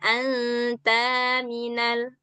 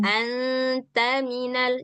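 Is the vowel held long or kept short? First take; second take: long; short. First: The vowel is held long. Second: The vowel is kept short. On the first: The speaker calls it wrong. "jangan anta minal. Nah, itu udah panjang tuh" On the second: The speaker calls it right. "Ini baca yang pendek"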